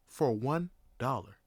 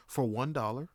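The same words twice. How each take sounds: First: "For one dollar" low, with a pause before "dollar"; emphatic repeat. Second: Said in the usual way. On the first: Real, not acted. Storyteller marvelling at taxi fare, "For one dollar" spaced out. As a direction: set "one" apart and let "dollar" fall.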